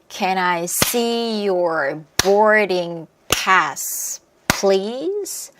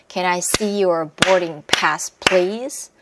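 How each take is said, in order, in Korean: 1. 천천히 말하고, 단어들이 이어져 있어요. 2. 조금 더 빠르게 말하고, 단어들이 이어져 있어요. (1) "천천히 다시 한번 연결해서 해볼게요" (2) "이제 조금씩 빠르게 들어가면 돼요"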